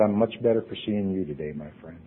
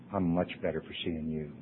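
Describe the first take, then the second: First: Gentle reply. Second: Soft repeat. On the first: Quoting Jimmy's kind reply. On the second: Quoting Jimmy's kind reply, repeated. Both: Retold or imitated.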